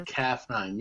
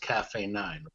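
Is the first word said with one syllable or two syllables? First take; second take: one syllable; two syllables. First: The first word is said as one syllable. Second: The first word is said as two syllables. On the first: The speaker calls it wrong. "You say CAF 9" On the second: The speaker calls it right. "You know it's Cafe 9"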